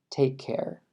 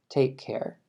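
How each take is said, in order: First: The two k sounds merge into one. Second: The same.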